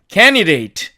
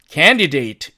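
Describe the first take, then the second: First: The d sound is dropped. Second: The d sound is clearly pronounced. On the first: "이 D를 사라지게 하고 나니까 candidate" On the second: "사전식 발음은 candidate"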